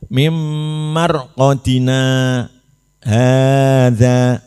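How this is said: A brief pause comes before the last word. The speaker calls it right. "na berhenti terus dihitung dua baru hadza"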